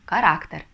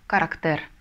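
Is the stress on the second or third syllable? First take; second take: second; third. First: The stress is on the second syllable. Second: The stress is on the third syllable. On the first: The speaker calls it right. "а нам нужно характер" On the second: The speaker calls it wrong. "если не поставим, то получится характер"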